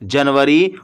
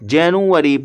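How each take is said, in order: First: The word has a Hindi-Urdu pronunciation. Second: The word has an English pronunciation. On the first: "Urdu और हिंदी में तो इसे जनवरी पढ़ते और बोलते हैं" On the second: "जब हम इसको इंग्लिश में पढ़ते और बोलते हैं"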